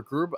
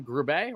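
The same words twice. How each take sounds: First: Grube said as one syllable, "groob"; alternative pronunciation. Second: Grube said as "groo-BAY"; two-syllable pronunciation. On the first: Host offering another guess at a surname, Grube as "groob". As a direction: say Grube without the "bay" ending. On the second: Host guessing a draftee's surname, Grube as "groo-bay". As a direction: end Grube on a "bay" sound. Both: Shown as a demonstration. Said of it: "however you pronounce the young man's name".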